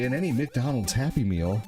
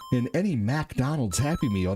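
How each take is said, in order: First: McDonald's begins with a 'mick' sound. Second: McDonald's begins with a 'mac' sound. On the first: The speaker calls it right. "No, they say" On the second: The speaker calls it wrong. "They don't say"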